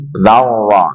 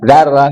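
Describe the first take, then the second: First: The r sound is heavy and thick. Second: The r sound is light and thin. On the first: The speaker calls it right. "tapi dzarra. Tebalkan" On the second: The speaker calls it wrong. "Bukan dzarra"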